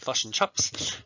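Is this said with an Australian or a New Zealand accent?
New Zealand. The vowels in fish and chips sound like 'u'. "whereas I'm New Zealand, they say fush and chups"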